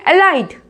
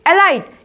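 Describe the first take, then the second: Both takes have the same delivery.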